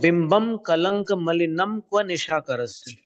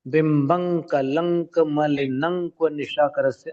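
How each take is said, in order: First: The final nasals are pronounced as a separate m. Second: The final nasals blend into the next sound, ng. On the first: "दो प्रकार से उच्चारण संभव है।" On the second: "जब अपन पंचम अक्षर करके उच्चारण करते हैं ... अंक अंक अंक तीन बार सुनाई देता है"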